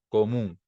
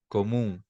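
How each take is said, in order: Both takes have the same delivery.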